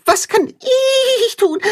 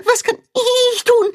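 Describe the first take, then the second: First: Very high, slow, whiny plea; high pleading calf voice; begging little calf. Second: Very high, whiny repeat; high calf voice pressing on tun; begging little calf. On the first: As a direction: beg eagerly like an excited calf. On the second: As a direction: beg again, stressing tun. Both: A narrator's reading. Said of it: "bettelt Tacho".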